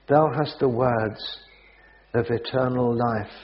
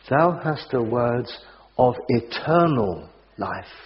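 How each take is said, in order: First: The word eternal is not specially stressed. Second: The word eternal is given strong emphasis.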